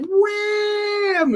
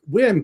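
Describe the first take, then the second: First: The call sounds playful and cheerful. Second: The call sounds stern and commanding. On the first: It is an invitation to have fun. The speaker calls it right. "in a fun way" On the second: It is an order to come. The speaker calls it wrong. "not like"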